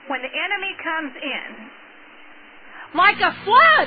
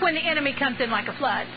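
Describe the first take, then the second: First: There is a pause before 'like a flood'. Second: There is no pause before 'like a flood'. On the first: The speaker calls it right. "I like to read it like this" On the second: The speaker calls it wrong. "we read that wrong sometimes"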